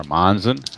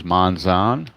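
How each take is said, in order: First: Monzon with a short, reduced second syllable; alternative name pronunciation. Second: Monzon with a long, full second syllable; alternative name pronunciation. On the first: Announcer offers another pronunciation, Monzon with short ending. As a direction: say Monzon quicker, ending like "zun". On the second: Announcer introduces the next batter, Monzon with full ZON. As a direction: say Monzon slowly, drawing out the ZON. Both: Shown as a demonstration. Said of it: "however you wanna pronounce it".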